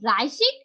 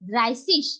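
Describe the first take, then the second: First: The word ends in a hard k sound. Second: The word ends in a soft ch sound. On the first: "এক তো ড্রাইসিক" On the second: "আর একটা হচ্ছে ড্রাইসিস"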